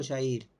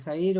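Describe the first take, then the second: First: Jair with a Rioplatense sh sound. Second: Jair with a throaty h-like J; J as Spanish jota. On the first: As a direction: say Jair as "sha-EER". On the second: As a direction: say Jair as "ha-EER". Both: Shown as a demonstration. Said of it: "¿Cómo es Jair?".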